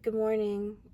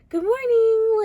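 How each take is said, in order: First: It is said in a flat, sad way. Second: It is said in a cheerful, upbeat way.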